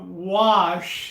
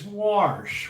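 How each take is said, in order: First: It is said in a standard accent. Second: It is said in a Baltimore accent.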